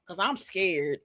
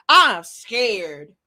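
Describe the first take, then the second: First: Said in the usual way. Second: Said through a laugh, louder. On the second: Real, not acted. Vlogger joking to viewers that he fears Anton, laughing. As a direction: chuckle out the words. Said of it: "'cause I'm scared".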